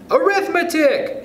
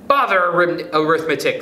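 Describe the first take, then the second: First: Very high, drawn-out shout; children's shout. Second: Mildly irritated, slightly raised voice; snappish. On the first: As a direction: shout it like a whole class of kids. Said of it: "shouted the children". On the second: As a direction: brush the subject off impatiently. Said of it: "snapped Stuart". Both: A narrator's reading.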